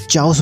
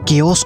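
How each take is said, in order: First: The word begins with a ch sound. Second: The word begins with a k sound.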